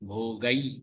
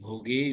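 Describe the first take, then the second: First: The word ends with an 'ai' vowel. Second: The word ends with a plain 'e' vowel. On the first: The speaker calls it right. "போகை ஐ அது" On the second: The speaker calls it wrong. "போகே இல்ல"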